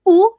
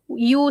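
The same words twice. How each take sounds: First: "u" as a bare oo, no y glide; oo sound. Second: "u" with a y glide, yoo; yoo sound. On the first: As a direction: say "u" as a pure oo. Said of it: "you don't say u". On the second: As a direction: say "u" as the word you. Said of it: "you pronounce it with the u". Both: Shown as a demonstration.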